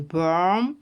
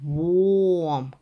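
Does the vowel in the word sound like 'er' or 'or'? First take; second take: er; or. First: The vowel is an 'er' sound. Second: The vowel is a long 'or' sound. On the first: The word means worm. The speaker calls it wrong. "це буде вже черв'як" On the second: The word means warm. The speaker calls it right. "Ось тут треба довгий О"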